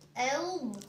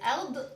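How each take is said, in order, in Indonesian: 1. Konsonan akhir berhenti dengan bersih tanpa memantul. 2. Konsonan akhir memantul dengan gema.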